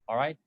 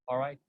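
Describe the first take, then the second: Both takes have the same delivery.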